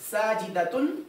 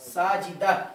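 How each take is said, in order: First: The word ends with a t sound and nasal -un. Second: The word ends on an open a vowel. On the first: The word is read connected. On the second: The reciter stops on this word.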